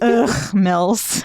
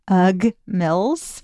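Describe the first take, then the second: First: The ugh is said with a rough throaty sound. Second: The ugh is said plainly, without a throaty sound.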